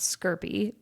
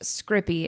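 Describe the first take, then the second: First: It begins with 'skir', the r after the vowel. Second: It begins with 'scrip', the r before the vowel. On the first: The speaker calls it wrong. "not skirpy" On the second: The speaker calls it right. "it is pronounced scrippy"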